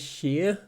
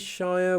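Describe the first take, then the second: First: The word ends in an ear sound with R. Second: The word rhymes with fire. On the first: "We don't even say sheer. Like we don't really pronounce the R at all" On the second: "we do not say shire"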